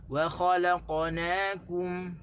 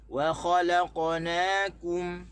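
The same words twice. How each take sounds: First: Slow, separate "wa", "khalaqna" and "kum"; "wa khalaqnakum" said slowly as three separate parts; correct stress. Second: Slow and louder, stress wrongly placed; "Wa khalaqnakum" recited slowly with the wrong stress. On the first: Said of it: "Sebenarnya kita kena baca". (tekanan betul, tiga kalimah) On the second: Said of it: "kita tak boleh baca". (tekanan salah, perlahan) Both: Shown as a demonstration.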